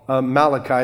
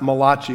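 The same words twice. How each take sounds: First: The name is said with plain English pronunciation. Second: The name is said with Italian-sounding pronunciation. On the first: The speaker calls it right. "it is called Malachi" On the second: The speaker calls it wrong. "It's not Malachi. It's not the Italian prophet"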